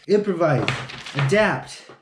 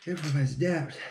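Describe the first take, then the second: First: Motivational mantra. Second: Muttered mantra. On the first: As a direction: drill it like a slogan. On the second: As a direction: repeat it softer, half under the breath. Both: Shown as a demonstration. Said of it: "What's the other one?".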